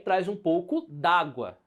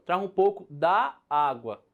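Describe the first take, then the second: First: One 'a' vowel is dropped and merged. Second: Both 'a' vowels are said separately. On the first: This is how people usually speak. "Esse apóstrofe trouxe uma omissão desse a" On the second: This is the full, formal form. "Há uma repetição entre esses dois vocábulos, a e a"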